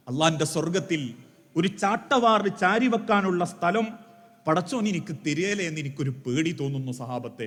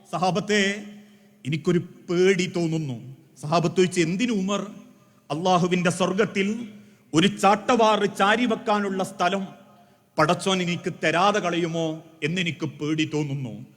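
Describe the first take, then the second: First: Lower, softer, tearful confession; tearful fear. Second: Understated tearful confession. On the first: Umar confessing his fear to his companions, softer and tearful. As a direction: let the fear break through quietly. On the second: Umar answering his companions through tears, mildly tearful. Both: A narrator's reading. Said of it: "കണ്ണുനീരോടെ തിരിച്ചു പറയുന്ന".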